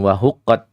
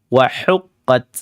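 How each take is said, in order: First: The h is a soft sound from deep in the throat. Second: The h is a harsh sound from mid-throat. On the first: The speaker calls it wrong. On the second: The speaker calls it right. "tapi wahuq, hu, hu"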